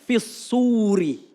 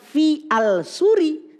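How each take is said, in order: First: The article merges into a doubled s sound. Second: The article al is sounded out separately. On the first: The speaker calls it right. "tapi fis suri. Langsung dimasukkan" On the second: The speaker calls it wrong. "bukan fi al suri"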